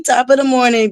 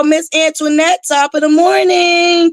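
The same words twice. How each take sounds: First: Said in the usual way. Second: Sing-song greeting. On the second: Real, not acted. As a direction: stretch "morning" up high like a cheery hello.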